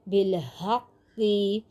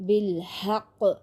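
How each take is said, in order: First: The word ends with a short i vowel. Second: The word ends on a bare consonant. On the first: The reading continues without a stop. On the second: The reader stops at this word.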